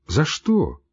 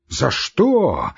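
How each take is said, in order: First: Mild, gentle за что; soft question. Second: Shouted question. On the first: Doctor mildly asking the raging patient why. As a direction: ask it gently, puzzled. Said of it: "спросил мягко". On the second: Patient shouting back at the doctor. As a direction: throw the words back at him. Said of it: "крикнул Иван Дмитрич". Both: A narrator's reading.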